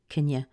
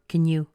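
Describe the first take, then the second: First: 'You' is reduced to a quick schwa. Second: 'You' keeps a full oo vowel. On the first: "It's very fast" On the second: "Even if I say you with an oo sound"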